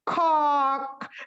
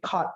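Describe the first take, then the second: First: The word ends with a k sound. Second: The word ends with a t sound. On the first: The speaker calls it wrong. "Jangan sampai kok. Kok itu artinya ayam jantan" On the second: The speaker calls it right. "Bacanya tuh K O T doang"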